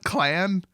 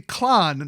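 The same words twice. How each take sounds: First: It is said with an American accent. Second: It is said without an American accent. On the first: The speaker calls it wrong. "that's the American" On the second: The speaker calls it right. "it would be clan"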